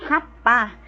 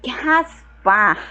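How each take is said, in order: First: "rapar" said clearly with a tapped r-less ending, hapa; saying rapar. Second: "raspar" drawn out slowly, with the s clearly sounded. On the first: Teacher models "rapar" for the class, clear and deliberate. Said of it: "quer dizer rapar". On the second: Teacher slowly spells out "raspar" for students, deliberate. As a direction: stretch out "raspar" so the s is heard. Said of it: "Raspar a panela". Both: Shown as a demonstration.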